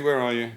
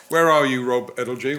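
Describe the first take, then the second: First: Said in the usual way. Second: Calling out. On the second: Real, not acted. Host calling out to find a questioner in the audience, loud call. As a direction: call out across the room to find him.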